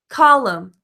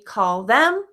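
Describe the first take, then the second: First: The 'th' is dropped, sounding like 'column'. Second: The 'th' is kept, with a full vowel. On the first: "drop the consonant in the beginning to make the um" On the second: "which can be call them"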